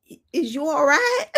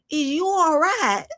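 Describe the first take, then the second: First: Mock concern. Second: Slow mock concern. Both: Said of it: "I'm like".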